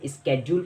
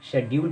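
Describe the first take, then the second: First: The word begins with an sk sound. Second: The word begins with an sh sound. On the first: This is the American form. "American English में इसे स्केड्यूल पढ़ा जाता है" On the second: This is the British form. "British English में इसको शेड्यूल पढ़ा जाता"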